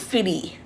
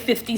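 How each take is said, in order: First: The word is pronounced in a casual slang form. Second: The word is pronounced exactly as it is spelled. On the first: The name is said the way the culture says it. "I know there's a slang, the culture" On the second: The name is read literally from its spelling. "I say fifty Cent because that's how I see it"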